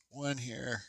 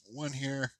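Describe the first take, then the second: No difference in how they are said.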